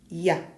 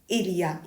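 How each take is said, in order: First: The pronoun is dropped entirely. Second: The pronoun is pronounced in full.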